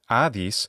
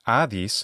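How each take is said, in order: First: The name is said in modern Greek pronunciation. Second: The name is said in modern Greek pronunciation.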